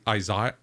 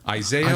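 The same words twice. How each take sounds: First: It has a British pronunciation. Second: It has an American pronunciation.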